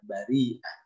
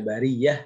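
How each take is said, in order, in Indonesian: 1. Bagian tengahnya ada hamzah sebelum akhiran. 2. Bagian tengahnya bunyi y, tidak ada hamzah. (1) "tapi dibaca bari'ah" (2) "tidak dibaca bariyah"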